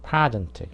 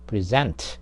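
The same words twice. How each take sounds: First: The stress is on the first syllable. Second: The stress is on the second syllable. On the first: It is a noun or adjective. "앞에를 강하게 발음하면 명사나 형용사" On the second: It is a verb. "뒤에를 강하게 발음하면은 동사"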